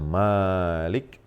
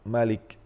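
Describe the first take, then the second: First: The first vowel of Malik is drawn out long. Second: The first vowel of Malik is kept short. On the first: It means king. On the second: It means one who holds power.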